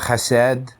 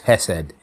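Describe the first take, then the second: First: The word is pronounced in an odd, jokey way. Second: The word is pronounced in an ordinary way. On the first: The speaker calls it wrong. "I pronounce it so weird" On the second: The speaker calls it right. "I'll just say it normally from now on"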